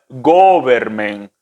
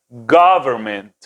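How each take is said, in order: First: The first vowel is a closed Spanish-like o. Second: The first vowel is an open, a-like o. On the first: The speaker calls it wrong. "no es government, no es una O de nosotros" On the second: The speaker calls it right. "una O más abierta, más americanizada"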